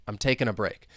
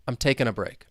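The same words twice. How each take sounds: No difference in how they are said.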